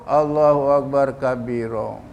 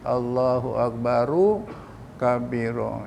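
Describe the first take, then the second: First: Akbar runs straight into kabiro without a vowel. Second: Akbar ends with an added u before kabiro. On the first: The speaker calls it wrong. "Dekat T V pun macam itu, dekat radio pun macam itu" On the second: The speaker calls it right. "tetapi Allahu Akbaru kabiro"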